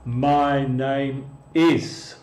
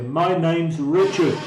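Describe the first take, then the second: First: Slow careful "My name is" with every word separate; teacher reads the uncontracted "is" slowly for students; full form, no contraction. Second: "name's" run together as one word, natural pace; native contraction. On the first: Teacher shows the textbook form to Spanish speakers, slow. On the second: Teacher models how natives really say it, contracted. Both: Shown as a demonstration. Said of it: "Pero los nativos van a decir".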